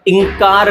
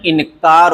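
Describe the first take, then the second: First: इंकार said as "ing-kaar"; ng nasal. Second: इनकार said as "in-kaar"; separate न. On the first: Teacher recapping the mistake, इंकार as "ing-kaar". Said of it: "इंकार नहीं". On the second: Teacher recapping, इनकार with separate n. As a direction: sound a clear n in इनकार. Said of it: "इनकार होता है". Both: Shown as a demonstration.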